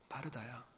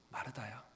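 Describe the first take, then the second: Both takes have the same delivery.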